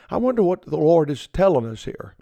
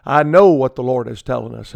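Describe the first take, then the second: First: Mock puzzled musing, not really wondering; tongue in cheek. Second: "know" firmly stressed, said plainly and a bit louder. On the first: Preacher teasing his radio listeners with mock puzzlement. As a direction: play dumb about an obvious verse. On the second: Real, not acted. Preacher answering his own mock question with plain certainty. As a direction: drop the act and land "know". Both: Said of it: "That's just a little tongue in cheek".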